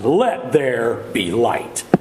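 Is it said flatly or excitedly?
excitedly. It is said with great excitement.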